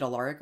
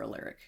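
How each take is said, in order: First: Alaric with an "ah" in the middle, uh-LAR-ick; Alaric, middle syllable rhyming with "car"; AH pronunciation. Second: Alaric with an "air" in the middle, uh-LAIR-ick; Alaric, middle syllable rhyming with "care"; AIR pronunciation. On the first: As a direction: say Alaric as uh-LAHR-ik. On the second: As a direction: say Alaric as uh-LERR-ik. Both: Shown as a demonstration. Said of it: "Is it Alaric or Alaric".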